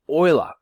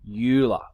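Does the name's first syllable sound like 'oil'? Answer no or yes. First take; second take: yes; no. First: The first syllable sounds like the word oil. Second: The first syllable does not sound like oil. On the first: The speaker calls it right. "think of the stuff that you put in your car" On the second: The speaker calls it wrong. "This is the incorrect pronunciation"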